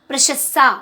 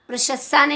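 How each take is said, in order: The two takes are said the same way.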